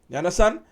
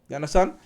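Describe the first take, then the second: The two takes are said the same way.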